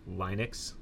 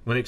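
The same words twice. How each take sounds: First: LINUX said "LINE-ix", first vowel like "line"; long I. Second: LINUX said with a short i, "LIN-ux"; crisp short-i "Linux". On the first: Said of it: "with a short I, not Linux". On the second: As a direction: say Linux as "LIN-ucks", short first vowel. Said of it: "should be pronounced Linux with a short I". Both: Shown as a demonstration.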